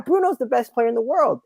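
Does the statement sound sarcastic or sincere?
sarcastic. It is said in a mocking, sarcastic tone. The speaker is bantering and does not mean it. "And then I could be like, yeah"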